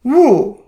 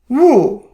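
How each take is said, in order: First: The pitch falls sharply from high. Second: The pitch falls sharply from high.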